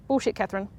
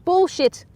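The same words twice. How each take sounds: First: Said in the usual way. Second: Bullshit! yelled high and loud; outraged shout. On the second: Real, not acted. Viewer shouting at Catherine on screen, loud outrage.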